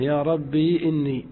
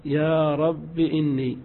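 First: "ربي" with a long ي left silent. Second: "رب" with the ي dropped, ending in kasra, slow. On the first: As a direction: keep the ي in "ربي" unvowelled. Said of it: "إثبات الياء ساكنة". ("ربي" بياء ساكنة) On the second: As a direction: say "رب" short with a kasra. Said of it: "الحذف مع الكسر". ("رب" بحذف الياء مع الكسر) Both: Shown as a demonstration.

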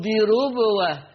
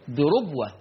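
First: بربوة with a light, thin r; thinned ra. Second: Said in the usual way. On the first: Shown as a demonstration. Teacher testing students with a wrong reading, thin ra in بربوة. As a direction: say بربوة with the ra softened, not heavy. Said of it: "أرقق بقى الراء، أقول بربوة". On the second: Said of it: "أرقق بقى الراء، أقول بربوة. لا".

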